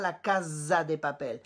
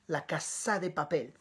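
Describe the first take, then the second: First: The middle consonant of casa is a buzzing z. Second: The middle consonant of casa is a hissing s. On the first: The speaker calls it wrong. "ne dis surtout pas" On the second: The speaker calls it right. "C'est un S comme Sophie"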